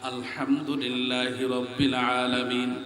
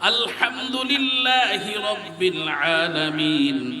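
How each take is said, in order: First: The words are pronounced sloppily and inaccurately. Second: The words are pronounced carefully and precisely. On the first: The reciter never learned to recite properly. The speaker calls it wrong. "সূরা কেরাত শুদ্ধ করে পড়তে পারেন না" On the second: The reciter knows how to recite properly. The speaker calls it right. "এটা হলো শুদ্ধ করে তেলাওয়াত করে নামাজ।"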